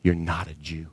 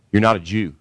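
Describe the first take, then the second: First: Much softer, lower, dropped almost to a murmur; quiet repeat. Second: "not" hit hard and held; stress on not. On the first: Repeated quietly after long pause. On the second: Preacher hammers Jesus' verdict. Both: Acted.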